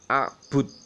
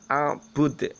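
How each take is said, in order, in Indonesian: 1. Huruf D terakhir berhenti datar tanpa memantul. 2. Huruf D terakhir memantul dengan gema kecil. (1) "Tidak boleh hanya a'bud" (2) "Itu harus ada mantulnya"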